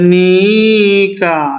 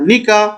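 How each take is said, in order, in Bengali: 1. 'ni'-এর স্বরধ্বনিটি দীর্ঘ করে টানা হয়। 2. 'ni'-এর স্বরধ্বনিটি হ্রস্ব করে বলা হয়।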